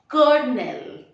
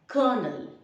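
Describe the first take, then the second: First: The word is said with an R sound. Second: The word is said without an R sound. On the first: The speaker calls it wrong. "or not colonel" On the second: The speaker calls it right. "it is colonel. There is no R"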